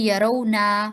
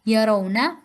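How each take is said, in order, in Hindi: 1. आख़िरी स्वर लंबा बोलते हैं। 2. आख़िरी स्वर छोटा बोलते हैं। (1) "आखिर में जो हरकत है वो आपकी लंबी हो रही है" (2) "एक हरकत है, दो नहीं"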